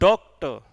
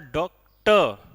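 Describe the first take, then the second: First: The stress is on the first syllable. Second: The stress is on the second syllable.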